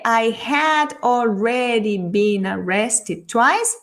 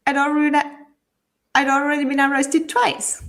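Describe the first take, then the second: First: Over-careful full-form reading; drawn-out, separated words, rising questioningly on twice; slow, word by word. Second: Words run together, I'd shortened; quick connected speech, contracting I had to I'd; faster, contracted. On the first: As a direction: spell it out slowly, each word apart. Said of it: "no lo dice de esa forma". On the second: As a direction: run the phrase together as one unit. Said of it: "lo dice más rápido, más abreviado". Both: Shown as a demonstration.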